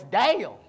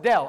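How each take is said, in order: First: The vowel is drawn out like 'ay'. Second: The vowel is a short clipped 'eh'. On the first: "it's Dale" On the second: "No, it's Dell"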